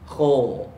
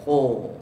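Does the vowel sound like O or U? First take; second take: O; O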